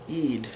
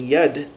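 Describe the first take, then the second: First: The word begins with a long E vowel. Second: The word begins with a Y consonant sound. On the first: "we'll do like a long E sound" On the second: "like the Y sound in English"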